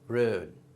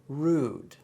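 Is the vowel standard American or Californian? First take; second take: Californian; standard. First: The vowel is shifted Californian. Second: The vowel is standard American. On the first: "then the California version" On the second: "a standard pronunciation"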